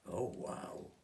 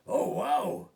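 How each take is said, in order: First: Said in the usual way. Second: Very high, loud burst of wonder; amazed squeal. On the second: Acted. Olivia sees the fairies, a very high loud amazed wow. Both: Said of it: "That's all Olivia could say".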